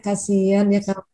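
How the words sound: It sounds warm and sympathetic.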